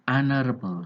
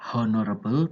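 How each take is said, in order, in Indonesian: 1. Kata ini langsung dimulai dengan huruf vokal. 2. Huruf h di awal dibunyikan. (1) "tapi honorable seperti huruf vokal E" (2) "Tidak dibaca honorable"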